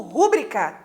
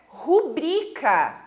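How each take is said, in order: First: Rúbrica with the stress on rú; wrong stress rúbrica. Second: Rubrica stressed on bri, ru-BRI-ca; correct rubrica. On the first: Teacher imitating the common wrong stress. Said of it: "Põe um acento lá no u". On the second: Teacher giving the correct stress with a laugh. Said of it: "a pronúncia correta é". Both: Shown as a demonstration.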